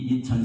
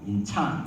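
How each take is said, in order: First: The stress is not on the second syllable. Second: The stress is on the second syllable. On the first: This is how Koreans say the city's name. "우리 인천하고는 조금 달랐죠" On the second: This is how Americans said the city's name. "발음은 미국에서 세컨 셀러브리죠"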